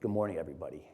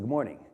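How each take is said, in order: First: It is said coldly, without warmth. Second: It is said warmly, with friendliness.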